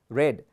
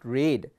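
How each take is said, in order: First: The vowel is short, rhyming with bed. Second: The vowel is long, rhyming with bead. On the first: It is the past participle form. The speaker calls it right. "we pronounce it as read" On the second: It is the present-tense form. The speaker calls it wrong. "it's not read"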